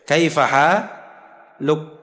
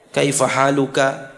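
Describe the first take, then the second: First: The phrase ends on k, final vowel dropped. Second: The phrase ends with a final vowel after k. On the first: One expression works for any listener. "sukunkan kafnya" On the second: This is the form used when first learning grammar. "harokat k-nya itu harus dibaca"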